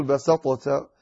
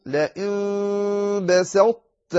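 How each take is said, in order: First: Quick "بسطت", the ṭāʾ flattened to a light t; the wrong "بسطت", no heaviness left; "بسطت" said thin, the mistake; wrong, ṭāʾ lost. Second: Very slow "بسطت" with a rising tune and a heavy ṭāʾ; careful model "بسطت", heaviness held; emphatic ṭāʾ kept. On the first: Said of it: "لا تقل". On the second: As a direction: stretch "لئن بسطت", keep the ṭāʾ full and heavy. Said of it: "فتقول". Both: Shown as a demonstration.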